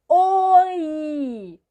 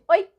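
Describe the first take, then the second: First: The vowels are drawn out long. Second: The vowels are said very short. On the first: "com vogais prolongadas" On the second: "agora é bem curtinho"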